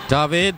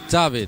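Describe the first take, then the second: First: The name is said the European way. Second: The name is said the European way.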